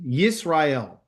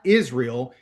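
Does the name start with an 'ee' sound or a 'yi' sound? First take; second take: yi sound; ee sound. First: The name starts with a 'yi' sound. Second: The name starts with an 'ee' sound. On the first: The speaker calls it right. "Yisrael, not Israel" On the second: The speaker calls it wrong. "not Israel"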